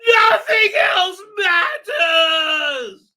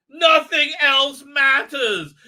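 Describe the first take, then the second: First: Very high, drawn-out, loud fake sobbing scream; mock screaming tantrum. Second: High, loud, slow fake crying; mock tearful wail. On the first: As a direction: scream it in hammed-up hysteria. Tantrum repeated at a higher pitch. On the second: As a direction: wail it in hammed-up despair. Mock tantrum of imitated woman.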